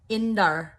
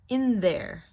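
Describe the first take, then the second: First: The th sound is dropped, sounding like indar. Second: The th sound is clearly pronounced before there. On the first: The speaker calls it wrong. "otherwise it sounds like indar" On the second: The speaker calls it right. "the T H needs to be pronounced"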